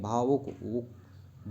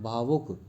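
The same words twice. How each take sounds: First: भावुक stretched out slowly, sound by sound; slow, clear model. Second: Said in the usual way. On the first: Shown as a demonstration. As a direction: draw out भावुक so pupils hear the उ. (भावुक को खींचकर धीरे बोलना)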